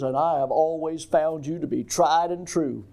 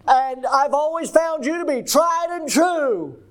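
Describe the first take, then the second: First: It is said at normal volume. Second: It is said loudly.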